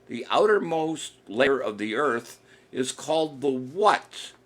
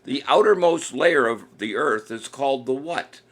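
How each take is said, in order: First: Drawn out, slowed-down question; patient quizmaster repeating the question slowly; slower repeat. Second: Said in the usual way. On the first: Shown as a demonstration. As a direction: spell the question out slowly for the players. Host repeats quiz question slower.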